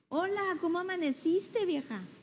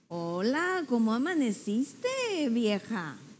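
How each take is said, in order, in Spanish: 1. Se dice con un tono dulce y cariñoso. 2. Se dice con un tono burlón e insinuante. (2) "Está insinuando que amaneció más vieja"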